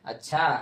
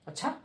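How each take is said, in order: First: अच्छा with a pleased rising tune; pleased intonation. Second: अच्छा with a surprised sharp rise at the end; surprised intonation. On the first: Teacher shows intonation to students, अच्छा said in a cheerful rising tune. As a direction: say अच्छा as if in a good mood, lifting the end. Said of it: "अच्छा खुश मिजाज से बोलते हैं". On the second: Teacher shows intonation to students, अच्छा said in surprise with rising tune. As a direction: say अच्छा as if astonished, swinging upward. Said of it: "दूसरा हम चकित होकर बोल देते हैं". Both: Shown as a demonstration.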